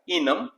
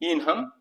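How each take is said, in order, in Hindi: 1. वाक्यांश संक्षिप्त रूप में कहा गया है। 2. वाक्यांश अपने पूरे रूप में कहा गया है।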